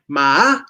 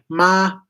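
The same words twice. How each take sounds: First: The pitch starts high and rises further. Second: The pitch stays high and level. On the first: "a high tone that also rises" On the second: "first tone is high"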